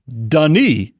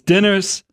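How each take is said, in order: First: The name is said the French way. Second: The name is said the anglicized, Southern way. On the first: The speaker calls it right. "You say Denis" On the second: The speaker calls it wrong. "That's not how you say his name"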